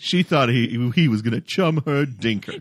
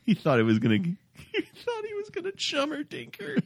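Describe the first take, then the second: First: It is said firmly, with strong conviction. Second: It is said casually, without much force. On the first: The speaker calls it right. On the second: The speaker calls it wrong.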